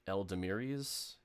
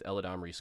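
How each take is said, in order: First: The name is said as El-da-mee-ree. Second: The name is said as Eh-la-dam-ree. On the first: The speaker calls it wrong. "I've heard a lot of streamers pronouncing it wrong" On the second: The speaker calls it right. "not Eldamiri's"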